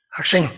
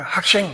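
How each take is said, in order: First: 학생 with the s turned to sh, like hak-shaeng; Namwon pronunciation. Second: Said in the usual way. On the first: Retold or imitated. Mimicking the presenter from Namwon, Namwon pronunciation. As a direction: say 학생 as 학섕, sh in the second syllable. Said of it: "남원 출신이구나". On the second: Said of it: "학생이란 말을".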